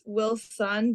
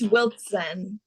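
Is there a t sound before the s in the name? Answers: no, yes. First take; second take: no; yes. First: No t sound comes before the s. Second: A t sound comes before the s. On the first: The speaker calls it wrong. "everybody th- says Wilson, but just add a little T" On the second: The speaker calls it right. "It's Wiltzen"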